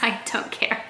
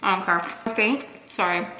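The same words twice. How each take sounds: First: Whispered. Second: Talking with food in mouth; mouth full. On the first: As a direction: whisper it like it's nothing. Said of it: "dismissive whisper to haters". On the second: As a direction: speak around a mouthful. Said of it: "I'm not trying to talk with food in my mouth". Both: Real, not acted.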